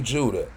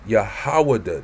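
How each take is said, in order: First: The name is said the English way, Judah. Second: The name is said the Hebrew way, Yehudah. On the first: The speaker calls it wrong. "We don't say Judah" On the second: The speaker calls it right. "That's how you would say Judah"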